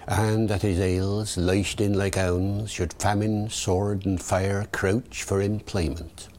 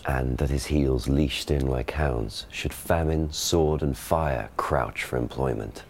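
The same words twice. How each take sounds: First: Original pronunciation, heels as hails; Early Modern English verse accent; Shakespearean original pronunciation. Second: Received pronunciation stage reading; modern RP Shakespeare. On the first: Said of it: "David the O P". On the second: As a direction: classic RP verse delivery. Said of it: "Ben gives the modern pronunciation". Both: Shown as a demonstration.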